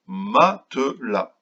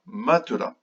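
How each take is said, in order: First: "matelas" very slow, in three separate beats; syllable by syllable. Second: Said in the usual way. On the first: Shown as a demonstration. Teacher introducing a word to children, "matelas" slowly split in three. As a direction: stretch "matelas" into ma, te, las. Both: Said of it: "Combien de syllabes dans matelas?".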